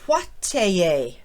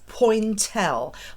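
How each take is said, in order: First: It is pronounced the French way. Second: It is pronounced the English way. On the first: "as they say in French" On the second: "as we might say in the U K or the U S"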